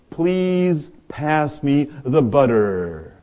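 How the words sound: It is said in an American accent.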